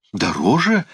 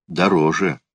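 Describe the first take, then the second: First: Higher, rising echo question on "Дороже"; startled cry. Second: Said in the usual way. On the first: A narrator's reading. Uncle balking at Alan's higher price, mildly startled cry. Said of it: "вскричал Эбенезер".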